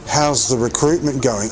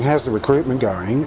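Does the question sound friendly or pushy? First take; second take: pushy; friendly. First: It sounds pointed and pressuring. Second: It sounds warm and encouraging. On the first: The asker is prying and applying pressure. "But no, it wasn't. ... more like that?" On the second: The asker is showing support. "he's just being supportive, like being encouraging"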